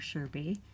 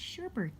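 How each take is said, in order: First: The second syllable has no added R sound. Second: The second syllable has an added R sound. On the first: The speaker calls it right. "It's sherbet or sherbet, not sherbert" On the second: The speaker calls it wrong. "That was a very Midwest pronunciation"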